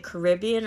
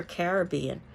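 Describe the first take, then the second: First: Caribbean stressed on RIB, ca-RIB-bean; stress on second syllable. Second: Caribbean stressed on BE, cari-BE-an; stress on third syllable. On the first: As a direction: put the accent on the RIB of Caribbean. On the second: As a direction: put the accent on the BE of Caribbean. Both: Shown as a demonstration. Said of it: "where you're putting the accent".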